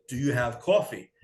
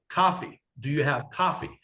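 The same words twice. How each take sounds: First: "coffee" with a rounded New York "aw"; New York vowel in "coffee"; New York accent. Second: "coffee" with an open "ah", like "cahfee"; exaggerated non-New York "coffee", open first vowel; changed-up accent. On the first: Retold or imitated. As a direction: ask for "coffee" as a New Yorker, "cawfee". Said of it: "my New York accent". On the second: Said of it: "had to change up the accent".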